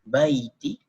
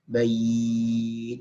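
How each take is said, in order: First: The word ends with a short final vowel. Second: The word stops on the final consonant. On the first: The recitation continues into the next word. "dibaca dengan wasal atau disambung" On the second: The recitation pauses at this word. "kalau diwakafkan bait"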